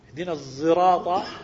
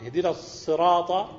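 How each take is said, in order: First: The word begins with a Z sound. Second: The word begins with an emphatic S sound.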